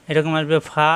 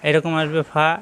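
The two takes are said the same way.

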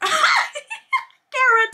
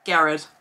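First: Higher, laughing through the name. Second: Said in the usual way. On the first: Real, not acted.

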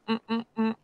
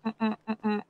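Both takes have the same delivery.

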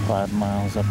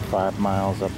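The two takes are said the same way.

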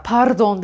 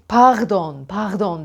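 First: "pardon" with a tongue-rolled R; "pardon" with a hard front R; Turkish trilled R. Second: "pardon" with a guttural R from the throat; "pardon" as pağdon, scraped at the back; French R. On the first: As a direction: say "pardon" non-French, trilling the R. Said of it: "Fransızlar pardon demezler". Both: Shown as a demonstration.

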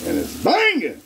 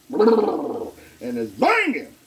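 First: High, sung-out catchphrase; catchphrase hype. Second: High and very slow, stretched out; drawn-out catchphrase. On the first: Cook selling his dish to viewers, high and sung out. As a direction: belt the catchphrase like a hype man. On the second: Cook hyping his steaks, high and slow. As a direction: savor every syllable of banging. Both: Real, not acted.

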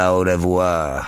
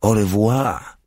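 First: Au revoir slowed and drawn out, conceding with a slight chuckle; slow, easy au revoir, giving in to her; amused agreement. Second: Higher, bright French goodbye through a forced smile; forced cheerful farewell. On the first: Legionnaire repeating Dora's au revoir, slow and amused. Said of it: "Zaśmiał się". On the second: Dora correcting her legionnaire with a forced smiling au revoir. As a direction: au revoir lifted up, insisting on a lighter goodbye. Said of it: "w wymuszonym uśmiechu". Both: A narrator's reading.

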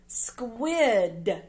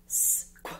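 First: Said in the usual way. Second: "Squid" as separate sounds, sss, kw, short i, d; sounded out. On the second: Shown as a demonstration. Teacher reading words with pupils, "Squid" sound by sound. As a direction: break "Squid" into sss, kw, i, d with gaps.

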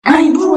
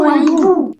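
First: "Un hibou" shrieked high and loud, rising; panicked squeaky cry, "Un hibou" rising; mice crying out. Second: "hibou" shrieked high and loud, falling; panicked squeal landing on "hibou"; mice crying out. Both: A narrator's reading. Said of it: "s'écrièrent les souris".

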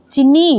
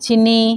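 First: Higher, rising call of the name; insistent call. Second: Said in the usual way. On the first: Acted. Instructor calls the rider to stop, insistent call. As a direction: call out to get her attention.

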